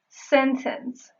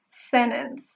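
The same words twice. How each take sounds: First: The t after n is fully pronounced. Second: The t after n is left silent. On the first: "You can pronounce it as regular T" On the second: "or as a silent T, meaning you actually don't pronounce it"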